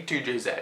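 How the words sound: The final letter is said the British way. This is how it is said on this channel. "we use English English here, not American English, so we, we say two J Z"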